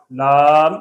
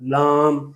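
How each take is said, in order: First: Said in the usual way. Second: لام with a nasal aa before the m; nasalized vowel. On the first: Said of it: "غنے پیدا ہو رہے ہیں". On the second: Shown as a demonstration. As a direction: push the vowel of لام into the nose. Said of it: "غنہ کرنے سے غنے کا حرف".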